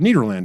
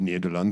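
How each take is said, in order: First: It is said with a local American pronunciation. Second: It is said with a foreign, European pronunciation. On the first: This is how the locals probably say it. "but they probably call it Nederland" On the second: This is how the original name should sound. "I'm saying it with an accent because it should be Nederland"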